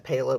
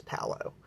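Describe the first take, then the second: First: Palo said with a long A, PAY-lo; mispronounced Palo. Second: Palo with a short A, PAL-oh; corrected pronunciation of Palo. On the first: Showing viewers how people mispronounce it, Palo as PAY-lo. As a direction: give "Palo" the mistaken PAY-lo vowel. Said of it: "a lot of people pronounce it". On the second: Correcting how people pronounce it, Palo as PAL-oh. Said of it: "but it's not. It's Palo". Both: Shown as a demonstration.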